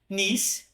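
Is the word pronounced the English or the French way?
English. It is said with an English pronunciation.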